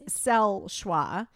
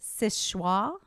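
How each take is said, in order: First: The name is said with a French pronunciation. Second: The name is said with an anglicized pronunciation. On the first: "in the true French" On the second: "It's pronounced Sichuan"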